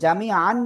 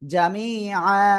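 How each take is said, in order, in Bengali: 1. শব্দটি n ধ্বনি দিয়ে শেষ হয়। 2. শব্দটি দীর্ঘ স্বরধ্বনি দিয়ে শেষ হয়। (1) "জামি আন না বলে" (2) "এক জবর বাদ দিয়ে একালিপ টেনে পড়বো"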